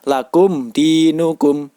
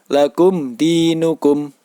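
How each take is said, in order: First: The m is pronounced clearly. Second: The m is pronounced clearly.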